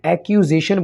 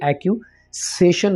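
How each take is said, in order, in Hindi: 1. -ation से पहले का व्यंजन Z साउंड है। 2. -ation से पहले का व्यंजन S साउंड है। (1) "एस की साउंड को लेकर नहीं आना, बल्कि जेड की साउंड होगी" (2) "इसको हमने एक्यूसेशन नहीं बोलना"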